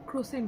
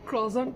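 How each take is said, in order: First: It ends with a clear 'sent' sound. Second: It ends with a nasal 'zon' sound. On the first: This is how it was long assumed to be said. "আমি এতদিন জানতাম এটাকে ক্রোসেন্ট বলে" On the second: This is the way learned from a show. "ওখান থেকে জানতে পারলাম"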